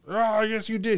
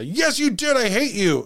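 First: Mock angry retort. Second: High-pitched mock tantrum; Patrick-style outburst. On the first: Dad contradicting kids over open windows, mock angry retort. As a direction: snap back as a mildly mocked angry dad. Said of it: "he would scream at the children". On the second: Dad screaming at his children over windows, Patrick-style outburst. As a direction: blow up in a much higher voice. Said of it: "he would Patrick out, as we call it".

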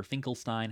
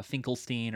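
First: Finkelstein with last syllable as "stine"; alternative pronunciation. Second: Finkelstein with last syllable as "steen"; alternative pronunciation. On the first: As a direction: say Finkelstein ending to rhyme with "fine". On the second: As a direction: say Finkelstein ending in a long ee. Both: Shown as a demonstration. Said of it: "however it's supposed to be said".

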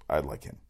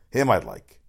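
First: Said in the usual way. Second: Him punched louder at the front of the line; stress on him. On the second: Shown as a demonstration. Host insisting he wants Dion Lewis, stress on Him. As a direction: hit the word Him hard.

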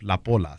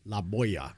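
First: "La Polla" said the Spanish way, po-la with a plain L; Spanish pronunciation. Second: "La Polla" said with a y sound, la POY-a; wrong pronunciation. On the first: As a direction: model "La Polla" as la PO-la, clear single L. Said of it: "Say La Polla". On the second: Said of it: "La Polla means a girl's hoo-hoo". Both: Shown as a demonstration.

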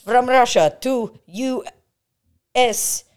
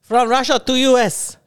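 First: Put-on high loud Russian accent slogan. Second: Put-on Russian accent slogan, louder. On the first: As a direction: belt it as a Russian ad. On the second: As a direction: read it like a Russian ad. Mocking Russian realtor ad.

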